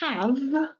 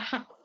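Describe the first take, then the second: First: The word ends with a voiced V sound. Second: The word ends with a voiceless F sound. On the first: "not a V sound" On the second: "we end up with an F sound"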